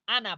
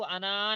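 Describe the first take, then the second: First: The final vowel is cut short. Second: The final vowel is drawn out long. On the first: The speaker calls it right. "आना पढ़ना" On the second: The speaker calls it wrong. "उसको अना नहीं पढ़ना"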